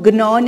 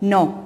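First: The initial g is sounded before the n. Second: The initial g is silent, starting with n. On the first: The speaker calls it wrong. "हम इसको gnaw नहीं बोलेंगे" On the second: The speaker calls it right. "we'll pronounce it as gnaw"

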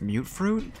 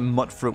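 First: The first part rhymes with 'cute'. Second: The first part rhymes with 'but'. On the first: The fruit is mutated. The speaker calls it right. "pronounced it correctly" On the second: The fruit is a mixture of different fruits. The speaker calls it wrong. "I used to call that mutt fruit when I first started playing this game"

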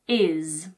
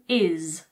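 First: The word is reduced with the H dropped. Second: The same.

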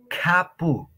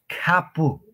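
The two takes are said the same way.

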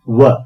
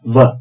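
First: The lips are rounded without touching the teeth. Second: The lower lip touches the upper teeth. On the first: "हमको अपने ओंठों को गोल करना पड़ता है और बोलना पड़ता है व" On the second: "इसमें हमारा लोअर लिप अपर टीथ को टच करके बोलता है व"

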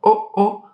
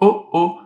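First: It is said in a small, high voice. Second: It is said in a medium voice.

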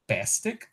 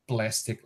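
First: The l after the p is dropped. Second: The l after the p is pronounced. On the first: "the omission of the liquid L in cluster pla" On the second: "the word plastic"

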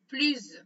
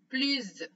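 First: The word ends with a z sound. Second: The same.

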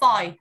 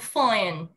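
First: The final n sound is dropped. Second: The final n sound is pronounced lightly. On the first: The speaker calls it wrong. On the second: The speaker calls it right.

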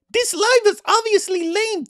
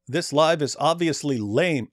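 First: It is said in Ali Dawa's character voice. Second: It is said in his normal voice.

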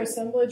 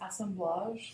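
First: The word is pronounced the English way. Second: The word is pronounced the French way.

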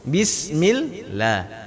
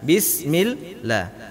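First: The L sound is thin and light. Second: The L sound is thin and light.

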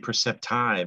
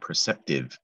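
First: The last syllable has a long I sound. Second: The last syllable has a short I sound. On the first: The speaker calls it wrong. "it looks like it should say perceptive, as in the word I've" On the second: The speaker calls it right. "but it's a short I"

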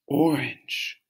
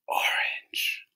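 First: It is said in a normal voice. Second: It is said in a whisper.

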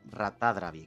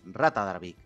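First: The stress falls on the third-to-last syllable. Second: The stress falls on the fourth-to-last syllable. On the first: "esdrújula sería Rata Dravik" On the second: "y esto es Rata Dravik"

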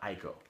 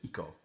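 First: The name begins with an 'eye' vowel sound. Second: The name begins with an 'ee' vowel sound. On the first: The speaker calls it wrong. "not Aiko" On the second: The speaker calls it right. "the correct pronunciation is Ico"

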